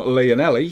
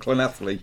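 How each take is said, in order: First: The name is said with an anglicized pronunciation. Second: The name is said with a Welsh pronunciation. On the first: This is how the other host says it. The speaker calls it wrong. "if it was talking from your side of things" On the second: This is how the speaker says it. The speaker calls it right. "from my point of view, it's definitely coming from"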